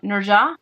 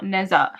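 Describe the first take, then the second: First: The middle consonant is a J sound. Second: The middle consonant is not a J sound. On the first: The speaker calls it right. "the H is like a J sound" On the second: The speaker calls it wrong. "his name is not Neza"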